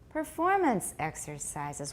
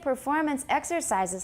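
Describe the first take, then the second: First: The stress falls on the word performance. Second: The stress falls on the word exercises. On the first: The speaker calls it right. "Listen carefully. Watch me. My, my chin kind of goes down" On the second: The speaker calls it wrong. "还是太高, then you're not using compound stress"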